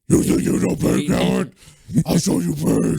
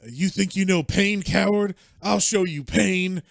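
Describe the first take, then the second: First: It is said in a gravelly Batman voice. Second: It is said in his normal voice.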